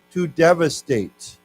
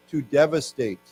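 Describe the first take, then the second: First: Slow, clear model word. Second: To devastate said once more clearly; repeat the word. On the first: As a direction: say it slowly so they copy. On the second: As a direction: say to devastate again for students. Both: Shown as a demonstration. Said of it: "why don't we say this".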